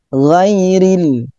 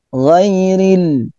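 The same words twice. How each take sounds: No difference in how they are said.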